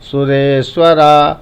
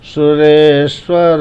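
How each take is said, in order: First: The word ends with a long 'aa' vowel. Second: The word ends with a short ending. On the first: The speaker calls it wrong. "अधिकतर लोग इसको बोले बोलते हैं सुरेश्वरा" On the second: The speaker calls it right. "सुरेश्वर ही बोलना है"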